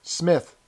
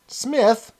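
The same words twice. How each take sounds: First: Said in the usual way. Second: Surprised question. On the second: Acted. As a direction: pitch jumps up in surprise. Woman echoes the name surprised.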